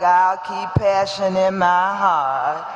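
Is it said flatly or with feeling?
flatly. It is said flatly, without conviction.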